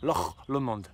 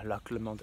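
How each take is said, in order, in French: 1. Il est prononcé avec un accent écossais. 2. Il est prononcé avec un accent français.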